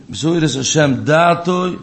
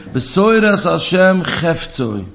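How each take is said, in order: First: Slow chant with weight on Datoi; corrected verse. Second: Slow, drawn-out chant stressing Besoiras; verse quoted slowly. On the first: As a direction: give Datoi the stress, slow and deliberate. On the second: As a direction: lean hard on Besoiras, draw the verse out. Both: Shown as a demonstration. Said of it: "So steht nicht Besoiras Hashem".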